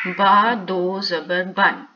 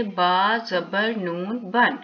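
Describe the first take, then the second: First: बा दो ज़बर बन spelled out slowly, each part distinct; slow teaching read. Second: बा ज़बर नून बन said slowly, नून clearly sounded before बन; slow spelled-out read. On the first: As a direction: sound out बा दो ज़बर बन for a pupil. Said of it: "हम इसको क्या पढ़ेंगे?". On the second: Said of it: "तो हम कैसे लिखेंगे?". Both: Shown as a demonstration.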